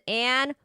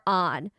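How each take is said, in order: First: The vowel is like the 'a' in 'cat'. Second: The vowel is an open 'ah' sound. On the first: "Do you pronounce this as Anne or On?" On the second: "I pronounce it as On"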